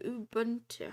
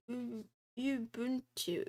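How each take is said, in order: First: Ubuntu said quickly as oo-BUN-too with an oo sound; second try. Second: Ubuntu said slowly as you-BUN-too with a you sound; unsure pronunciation. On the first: Streamer retrying Ubuntu, now the oo-buntu sound. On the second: Streamer testing Ubuntu aloud, trying the you-buntu sound. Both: Shown as a demonstration. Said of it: "How do I say that word?".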